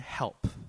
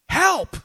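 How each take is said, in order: First: The word is said in a casual, relaxed way. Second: The word is said in an urgent, desperate way. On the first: A small everyday favor is asked. "Azer doesn't mean help" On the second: A desperate cry for rescue in danger. "Azer means help"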